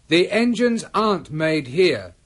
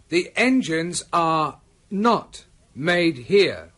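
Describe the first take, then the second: First: Are and not are merged into one syllable. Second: Are and not are said as separate words.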